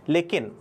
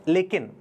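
The two takes are said the same way.

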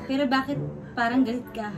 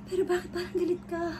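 First: It is said plainly, without emotion. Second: It is said in a scared way.

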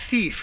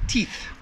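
First: It begins with a soft th sound. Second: It begins with a plain t sound. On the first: The speaker calls it right. "Make sure that TH sound is pronounced" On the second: The speaker calls it wrong. "I hear all the time"

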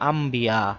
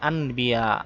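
First: The consonant before b is pronounced as m. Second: The consonant before b is pronounced as n. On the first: "আমরা এখানে পড়বো আম্বিয়া, নুনকে মিম উচ্চারণ করব" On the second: "যেমন এখানে আনবিয়া"

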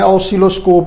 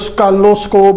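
First: The word begins with an 'aw-si' sound. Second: The word begins with a 'ska' sound. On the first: The speaker calls it right. "ऑसिलोस्कोप होती है" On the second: The speaker calls it wrong. "Punjabi लहजे में इसे स्कैलोस्कोप भी कहते हैं"

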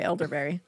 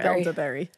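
First: It is said in a plain, neutral accent. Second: It is said in a Boston accent.

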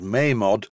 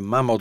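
First: The first vowel is long, as in 'name'. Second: The first vowel is short, as in 'ham'. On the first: This is the official way. "I know the real pronunciation is Mamod" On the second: This is the speaker's own preferred way. "I'm going to refer to this as a Mamod steamroller"

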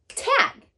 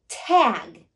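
First: The word is said out quickly. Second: The word is stretched out slowly. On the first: "say it in a snap" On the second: "Blend with me"

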